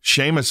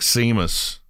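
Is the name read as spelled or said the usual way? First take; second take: usual way; as spelled. First: The name is said its usual way. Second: The name is read out as it is spelled. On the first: This is how the name is really said. "Seamus is another one" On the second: This is how the spelling makes it look. "It looks like Seamus"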